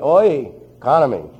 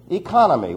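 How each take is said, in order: First: The word is said in a New York accent. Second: The word is said in a plain accent. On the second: "how do we transliterate it?"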